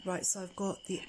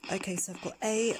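First: Said in the usual way. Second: Whispering; hushed whisper, breath only; leaning in to whisper. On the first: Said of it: "I'm gonna whisper". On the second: Real, not acted. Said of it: "I'm gonna whisper so you can hear".

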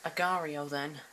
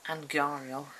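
First: "Agario" said with no n, a-GAR-io; corrected "Agario", no n sound; correct pronunciation. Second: "Angario" said with an n after the first a; wrong pronunciation. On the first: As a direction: say "Agario" as the right name, without an n. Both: Shown as a demonstration.

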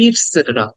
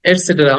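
First: "ইটসেটেরা" starting on short "i"; correct pronunciation. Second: "এটসেটেরা" starting on "e"; common pronunciation. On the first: Teacher gives the true form, "ইটসেটেরা" with "it-". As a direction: open "ইটসেটেরা" with "it". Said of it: "প্রকৃত উচ্চারণ হবে". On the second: Teacher quotes what many say, "এটসেটেরা" with "et-". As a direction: open "এটসেটেরা" with "et". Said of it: "অনেকে হয়তো এটসেটেরা বলে". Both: Shown as a demonstration.

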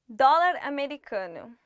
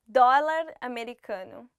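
Both takes have the same delivery.

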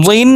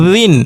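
First: জিন begun from the back of the tongue; heavy first sound in জিন, from the tongue's root. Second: জিন begun with a buzz at the tongue tip; first sound of জিন made with the tongue's tip. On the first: Teacher drilling letter contrasts, tongue-root জিন. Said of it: "একটা জিহ্বার গোড়া থেকে উচ্চারণ". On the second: Teacher drilling letter contrasts, tongue-tip জিন. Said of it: "আর একটা জিহ্বার আগা থেকে উচ্চারণ". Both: Shown as a demonstration.

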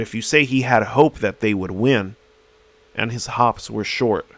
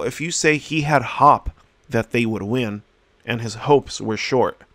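First: "hope" with a long o and "hops" with a short o, said correctly; correct vowels. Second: "hop" said with a short o and "hopes" with a long o, the vowels swapped; mispronounced vowels. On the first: Teacher showing students the correct reading, vowels said right. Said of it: "now all of a sudden these sentences make sense". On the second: Teacher showing students a misread sentence, with the vowels swapped. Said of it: "you're not gonna understand anything". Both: Shown as a demonstration.

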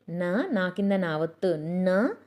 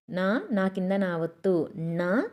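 No difference in how they are said.

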